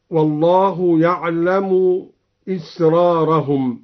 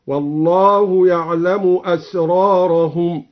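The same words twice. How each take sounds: First: Said in the usual way. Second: أسرارهم starting with a, not i; asrarahum with open hamza. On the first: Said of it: "قرأ الدوري بفتح الهمزة". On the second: Shown as a demonstration. Teacher shows Al-Duri's fatha on the hamza for students. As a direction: recite أسرارهم as asrarahum, slow. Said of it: "هكذا".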